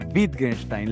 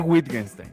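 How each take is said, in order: First: The first sound is a soft lip B. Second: The first sound is a W sound. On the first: The speaker calls it right. "se dice Wittgenstein, la, es como B labial, B chica" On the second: The speaker calls it wrong. "no se dice Wittgenstein"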